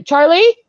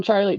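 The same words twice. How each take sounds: First: "Charlie?" called higher and louder with a rise; calling out. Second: Said in the usual way. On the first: Real, not acted. Calling out to an overexcited viewer, loud. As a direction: call "Charlie?" to get his attention. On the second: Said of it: "Boy, you better simmer down".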